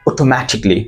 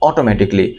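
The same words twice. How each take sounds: First: The first vowel is a rounded 'oh' sound. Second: The first vowel is an open 'aw' sound. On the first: The speaker calls it right. "ও" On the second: The speaker calls it wrong. "It's not অটোমেটিকলি, আর এটা অ নয়"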